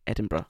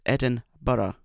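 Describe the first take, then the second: First: The word is said very quickly. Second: The word is said at a normal pace.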